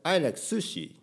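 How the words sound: Sushi is said with English stress and sounds. The speaker calls it right.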